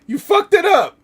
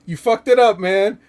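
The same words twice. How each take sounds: First: Much higher and louder, near a scream; shrieking yell. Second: Loud, higher, furious yell; angry yell. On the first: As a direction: lose it completely on the repeat. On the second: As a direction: bark it at him like he blew it. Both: Retold or imitated. Repeating a quoted angry line.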